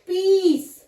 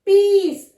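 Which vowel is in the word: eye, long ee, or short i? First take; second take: long ee; long ee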